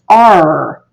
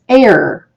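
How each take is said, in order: First: The vowel sounds like the letter R. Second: The vowel sounds like the word 'air'. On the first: The speaker calls it right. "It's pronounced R" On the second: The speaker calls it wrong. "following the rules of phonics, be pronounced air, but it's not"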